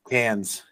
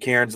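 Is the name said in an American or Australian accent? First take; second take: Australian; American. First: The name is said in an Australian accent. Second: The name is said in an American accent. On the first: This is how locals say it. "they pronounce it Cairns" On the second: This is how an outsider says it. "I went to Cairns"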